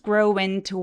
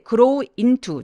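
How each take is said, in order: First: The two words flow smoothly together. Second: The two words are said separately. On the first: The speaker calls it right. "소리가 부드럽게 연결이 될 거예요" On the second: The speaker calls it wrong. "나눠서 발음하지 않고요"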